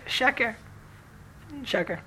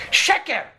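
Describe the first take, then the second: First: Hushed one-word verdict; very low voice. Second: Sudden higher-pitched mock scream; retold scream. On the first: Retold or imitated. Rabbi finally answering after long silence, in a very low voice. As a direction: say it under your breath, imitating the rabbi. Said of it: "in very low voice". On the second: Rabbi breaking his long silence at the questioner, a retold scream. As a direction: burst out with it, imitating the rabbi's scream. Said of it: "hearing him scream at me".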